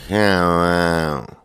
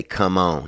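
First: Imitating a country dude's long slow drawl; mimicking the friend's brother's drawl. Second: Said in the usual way. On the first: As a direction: stretch it out lazy and slow. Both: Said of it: "he had the slowest drawl".

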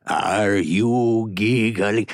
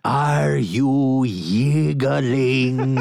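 First: Very slow, drawn-out theatrical question; Ricardo Montalban impression. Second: Higher, very drawn-out "yiggling", opening on a y; Ricardo Montalban accent. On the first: Asking Richard if he is giggling, slow Montalban voice. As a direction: stretch it out with grand deliberation. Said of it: "one of my favorite impressions". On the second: Acted. Teasing Richard with the corrected word "yiggling", slow Montalban accent. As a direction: stretch "yiggling" grandly, with y for g. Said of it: "I should say yiggling".

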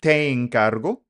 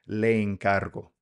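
First: "Te encargo" opened with a light te; informal te encargo. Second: "Le encargo" opened with le, a touch slower; formal le encargo. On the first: Teacher shows the casual way to order tacos, informal te. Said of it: "if it's informal". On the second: Teacher shows the polite way to order with strangers, formal le. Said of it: "if it's formal". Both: Shown as a demonstration.

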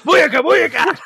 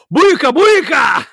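First: High, lightly yelled catchphrase; half-hearted imitation of the yell; mock yell. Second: High, loud slow yell across the shop; yelled catchphrase. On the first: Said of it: "Monk just thought that, like". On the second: Retold or imitated. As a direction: holler it at a coworker. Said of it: "and just yell".

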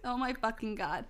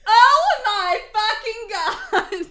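First: Said in the usual way. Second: Scream. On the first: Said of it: "I screamed". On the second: Acted. Goth girl thrilled by concert news, screaming. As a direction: scream it at full volume, laughing. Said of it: "she screamed again".

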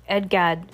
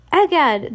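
First: Said in the usual way. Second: Higher, louder cry of surprise; surprised exclamation. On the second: A narrator's reading. Shopkeeper finds the children gone, surprised exclamation. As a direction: exclaim it as if startled. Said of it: "the shopkeeper's surprise".

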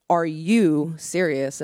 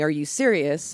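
First: "Are you serious?" drawn out slowly, word by word; slow, deliberate retold challenge on "Are you serious?"; pointed repeated question. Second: Said in the usual way. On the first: Professor repeats question for emphasis.

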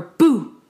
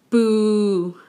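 First: A loud jump-scare boo; startling boo. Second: A louder booing boo; disapproving boo. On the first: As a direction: shout boo to scare someone. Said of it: "I scared you". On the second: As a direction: boo like a crowd that hates it. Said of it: "that's bad". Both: Shown as a demonstration.

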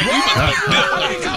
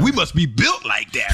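First: High, loud, laughing boast; laughing shout. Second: Said in the usual way. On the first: Retold or imitated. Bragging about holding their liquor.

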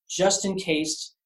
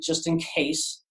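First: "just in case" drawn out slowly with raised pitch; slow, pointed "just in case"; emphatic repeat. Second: Said in the usual way. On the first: Retold or imitated. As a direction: lift JUST high and stretch "just in case".

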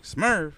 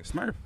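First: High, loud falling echo; incredulous repeat. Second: High rising retold reply; tentative answer. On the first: Retold or imitated. Stranger repeats the sender's name back, incredulous. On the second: Newcomer tells who sent him, tentative. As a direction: offer the name like a question.

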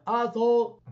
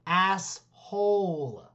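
First: "Asshole" blurred to "ah-thole", high and loud; imitated deaf mispronunciation. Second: ASS and HOLE slowly separated and drawn out; over-enunciated. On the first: Angry deaf player cursing his teacher, imitated deaf mispronunciation. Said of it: "rather than get mad at him for saying asshole". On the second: Retold or imitated. Teacher demonstrating the word to a deaf pupil, over-enunciated. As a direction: mouth "Asshole" very slowly, each syllable clear. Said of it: "he made him mouth the word so he understood".

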